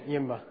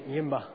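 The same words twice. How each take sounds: The two takes are said the same way.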